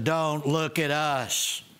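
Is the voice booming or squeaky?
booming. The voice is deep, loud and booming. "With their booming cosmic voices"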